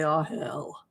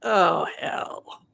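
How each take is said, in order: First: Resigned groan. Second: Breathy whispered "Oh, hell." with a falling "Oh"; dismayed whisper. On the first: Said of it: "And then they say". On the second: Friends try the vision and whisper "Oh, hell." in dread. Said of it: "My friends are like". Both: Retold or imitated.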